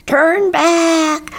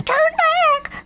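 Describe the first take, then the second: First: High, loud squawked warning; squawking crow. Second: Extremely high-pitched cartoon crow cry; shouting crow. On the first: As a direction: squawk the order like an alarmed crow. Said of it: "squawked Bernie Crow". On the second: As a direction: cry the warning in a tiny, very high voice. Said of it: "shouted Lucy Crow". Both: A narrator's reading.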